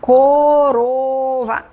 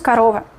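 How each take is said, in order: First: Every vowel is pronounced as a full O. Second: The unstressed vowels are reduced toward A. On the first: "está escrito como корова" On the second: "pero nosotros pronunciamos корова"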